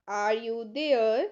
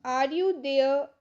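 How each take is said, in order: First: Slow it down and drop the pitch; slower repeat. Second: Said in the usual way. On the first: Shown as a demonstration. Teacher repeats slowly for the class, slow and lower. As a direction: say it again, slowly, for learners. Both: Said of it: "teacher repeats the phrase".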